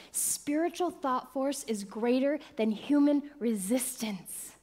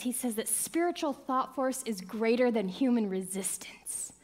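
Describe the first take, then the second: First: "Spiritual thought force" repeated slowly, each word weighted; slow it down and land every word; slow emphatic restatement. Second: Said in the usual way. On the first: Shown as a demonstration. Repeating the teaching to the congregation, slower and weighted. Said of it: "says this". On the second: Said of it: "Doctor Ernest Holmes says this".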